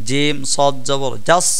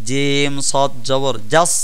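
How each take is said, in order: The two takes are said the same way.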